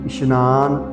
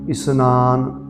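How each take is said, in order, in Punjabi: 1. ਇਹ ਸ਼ਬਦ sh ਆਵਾਜ਼ ਨਾਲ ਬੋਲਿਆ ਜਾਂਦਾ ਹੈ। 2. ਇਹ ਸ਼ਬਦ ਸਾਦੀ s ਆਵਾਜ਼ ਨਾਲ ਬੋਲਿਆ ਜਾਂਦਾ ਹੈ। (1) "ਪੈਰ 'ਚ ਬਿੰਦੀ ਨਹੀਂ ਲਾਉਣੀ, ਇਸ਼ਨਾਨ ਨਹੀਂ ਕਹਿਣਾ" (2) "ਸੋ ਇਸ਼ਨਾਨ ਕਰਕੇ ਉਚਾਰਨ ਹੋਵੇਗਾ"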